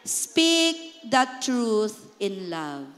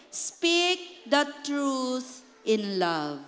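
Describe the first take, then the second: First: Very slow, lower, tender reading; slow gentle verse. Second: Very slow, tender scripture line; slow gentle verse. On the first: Pastor repeats verse for church, slow and tender. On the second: Pastor models gentle truth for church, slow and tender. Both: Shown as a demonstration. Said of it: "How do you say it?".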